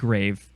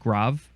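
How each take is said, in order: First: It sounds like the English word for a tomb. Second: It is said with the French accent-name pronunciation. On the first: This is the pronunciation used only in the memory rhyme. The speaker calls it wrong. "we don't pronounce it grave except in the mnemonic" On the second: This is how the accent name is normally pronounced. The speaker calls it right. "It's it's grave"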